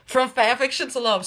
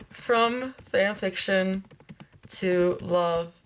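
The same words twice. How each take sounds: First: Said in the usual way. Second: Title spelled out slowly word by word; slow, deliberate reading. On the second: Real, not acted. Streamer rereading a fanfiction title to herself, slow and deliberate. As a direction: take "From fanfiction to love" slowly, with pauses.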